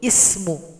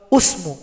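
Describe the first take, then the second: First: The word begins with an i vowel. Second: The word begins with a u vowel. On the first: The speaker calls it right. "harus ismuhu" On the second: The speaker calls it wrong. "Tidak boleh asmu atau usmu"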